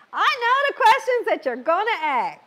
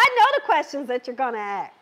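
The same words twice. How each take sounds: First: Higher, teasing repeat; playful emphasis. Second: Rattled off fast and light; quick aside. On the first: Host teasing her live viewers, a higher playful repeat. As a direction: say it again with a knowing, playful push. Repeats it louder, then laughs. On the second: Host to her live viewers, tossed off quickly. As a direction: toss it off quickly, half to herself. Says it twice, then laughs. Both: Real, not acted.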